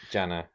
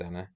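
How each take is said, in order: First: The name begins with a J sound. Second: The name begins with a Z sound. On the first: The speaker calls it right. "Begins with a J" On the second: The speaker calls it wrong. "I'm pretty sure it's Zanna"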